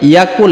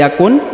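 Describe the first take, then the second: First: The word ends with an l sound. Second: The word ends with an n sound. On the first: The speaker calls it right. "tapi yakul" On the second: The speaker calls it wrong. "bukan lagi yakun"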